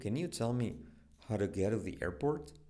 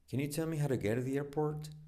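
First: It is said slowly. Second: It is said fast.

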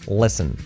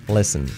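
Both takes have the same delivery.

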